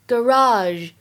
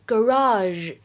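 First: It is said in an American accent. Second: The same.

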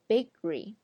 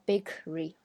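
First: The k sound is held, not released. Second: The k sound is clearly released. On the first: The speaker calls it right. "而是bakery" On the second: The speaker calls it wrong. "我们不会说bakery"

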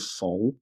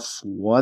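First: It has no u sound before the vowel. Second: It has a clear u sound before the vowel. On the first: "然后在台湾就是" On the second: "有个乌的音也是挺明显的"

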